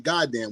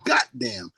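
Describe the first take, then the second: First: The first syllable ends with a d sound. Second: The first syllable ends with a t sound. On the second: "we say goddamn, G O T"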